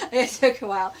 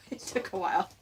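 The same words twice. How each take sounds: First: Said in the usual way. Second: Chuckling through the words; amused, half-laughing aside. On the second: Real, not acted. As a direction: laugh it out sheepishly. Laughs at himself mid-sentence.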